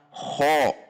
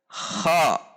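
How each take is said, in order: First: The vowel is said with rounded lips. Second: The vowel is said with unrounded lips. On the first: The speaker calls it wrong. "Contoh yang membulatkan bibir adalah kho" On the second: The speaker calls it right. "namun dibaca biasa saja"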